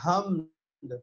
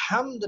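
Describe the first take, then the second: First: حمد with a plain breath h, like ہمد; wrong pronunciation. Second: حمد with a strong pharyngeal ح; careful, emphatic حمد; correct pronunciation. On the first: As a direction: say حمد without the throaty ح. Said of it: "بلکہ آپ نے کہا". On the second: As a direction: stress the throaty ح opening حمد. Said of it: "حمد نہیں کہا آپ نے". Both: Shown as a demonstration.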